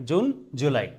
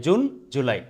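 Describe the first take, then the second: No difference in how they are said.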